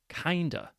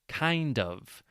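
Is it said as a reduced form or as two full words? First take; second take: reduced form; full words. First: The two words blend into one reduced word. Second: Both words are said fully and separately.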